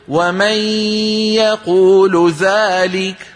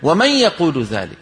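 First: The n is a long drawn-out nasal hum. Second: The n is a short nasal hum. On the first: This belongs to Quran recitation, not everyday speech. "هذا ما عاد كلام عرب" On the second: This is how Arabs spoke in everyday speech. "العربي في زمن النبوة يقول ومن يقول ذلك"

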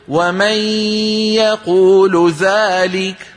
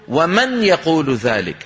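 First: The n is a long drawn-out nasal hum. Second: The n is clearly tapped with the tongue. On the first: "هذا ما عاد كلام عرب" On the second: "لا يقرع النون بلسانه"

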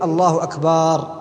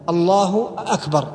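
First: The second vowel of akbar is drawn out long. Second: The first vowel of akbar is drawn out long. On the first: Akbar becomes a word meaning a drum or a desert plant. "الخلل يكون فيما يفعله بعض المؤذنين من مد كلمة أكبر" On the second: It turns akbar into a question. "أو الاستفهام في لفظة أكبر"

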